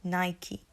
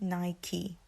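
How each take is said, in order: Both takes have the same delivery.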